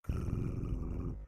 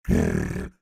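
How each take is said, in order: First: It is said softly. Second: It is said loudly.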